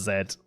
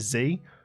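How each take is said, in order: First: The letter is said as zed. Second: The letter is said as zee. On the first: This is how the rest of the world names the letter. "the rest of the world says Z" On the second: This is the American way of naming the letter. "Americans say Z"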